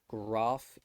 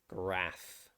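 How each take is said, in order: First: The vowel is a long 'ar' sound. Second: The vowel is a short 'a' sound. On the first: "it's more likely to be an r sound at the end of the word, like photograph" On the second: "an ah sound, so not an r"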